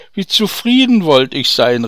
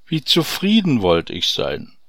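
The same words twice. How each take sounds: First: Louder and higher cry of longing; a loud, yearning cry; calling out. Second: Said in the usual way. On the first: Acted. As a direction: fling the wish out loud. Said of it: "rief der Kornhändler". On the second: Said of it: "seufzte der Bauer".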